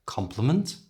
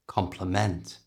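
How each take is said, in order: First: "Compliment" stressed on COM, reduced ending, rising tune; stronger beginning. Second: "Complement" with a full, weighted MENT, falling tune; stress at end. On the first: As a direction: stress the start of "Compliment" and lift the pitch at the end. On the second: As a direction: stress the end of "Complement" and let the pitch fall. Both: Shown as a demonstration. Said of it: "let's try them next to each other".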